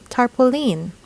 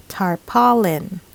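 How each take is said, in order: First: Tarpaulin as tar-puh-LEEN; local mispronunciation. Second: Tarpaulin as tar-PAW-lin; correct pronunciation. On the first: Teacher shows the usual error, tarpaulin as tar-puh-LEEN. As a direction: end tarpaulin on a long LEEN. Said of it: "Normally, we would say tarpaulin". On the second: Teacher models the correct word, tarpaulin as tar-PAW-lin. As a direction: slowly, stress PAW in tarpaulin, short lin. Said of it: "this should be pronounced". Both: Shown as a demonstration.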